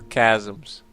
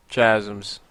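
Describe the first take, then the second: First: "Chasms" said as KAZ-ums; hard K pronunciation. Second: "Chasms" with CH as in chair; soft CH pronunciation. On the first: Player offering the other way of saying the map name, "Chasms" with a K. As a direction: start "Chasms" on a hard K sound. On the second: Player trying one way of saying the map name, "Chasms" with a CH. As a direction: start "Chasms" on a soft CH sound. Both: Shown as a demonstration. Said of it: "which way to pronounce it".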